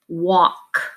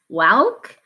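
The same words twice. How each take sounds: First: The vowel sounds like 'aw'. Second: The vowel sounds like 'ah'. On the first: The speaker calls it right. "This A L is actually making the sound aw" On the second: The speaker calls it wrong. "it looks like ah, ulk, walk. We don't pronounce it that"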